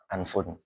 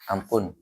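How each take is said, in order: First: The middle consonant is an F sound. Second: The middle consonant is a P sound. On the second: "Kalau bahasa Indonesia ampun ya"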